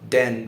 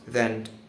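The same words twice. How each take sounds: First: The th sound is replaced by another sound. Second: A clear th sound is pronounced. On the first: The speaker calls it wrong. "If I don't pronounce the th sound" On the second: The speaker calls it right. "when I pronounce the th sound correctly"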